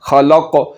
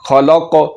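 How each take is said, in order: First: The final k is deep with an echoing bounce. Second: The same.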